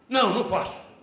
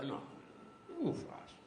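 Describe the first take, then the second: First: The refusal sounds curt and harsh. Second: The refusal sounds gentle and friendly. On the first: The listener is brushed off without respect. The speaker calls it wrong. "Você pode falar assim" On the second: The listener is respected even while refused. The speaker calls it right. "uma energia mansa, amiga, aberta, sincera"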